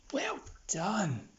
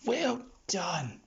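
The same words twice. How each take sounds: First: Whispered praise. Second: Said in the usual way. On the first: Real, not acted. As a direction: breathe the praise without voice. Praising the dog quietly.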